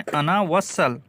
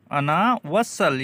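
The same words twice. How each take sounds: First: Said in the usual way. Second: "अना वसल" spelled out very slowly, each syllable drawn out; slow it right down so students can copy "अना वसल"; slow repeat. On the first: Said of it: "अना वसल" said again slowly". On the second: Shown as a demonstration. Teacher repeats the Arabic slowly for learners to copy. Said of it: "slow repeat of the phrase".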